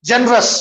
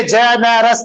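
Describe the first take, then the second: First: जनरस in two syllables, "jen-rus"; squeezed-out syllable. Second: Generous sounded out as "je-ne-ras"; wrong three-syllable pronunciation. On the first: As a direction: drop the middle vowel of जनरस. (जनरस, बीच का स्वर दबाकर) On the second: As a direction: give generous all three syllables, middle vowel kept. (generous को "जे-ने-रस", तीन हिस्सों में) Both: Shown as a demonstration. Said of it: "वैसा नहीं पढ़ते इंग्लिश में".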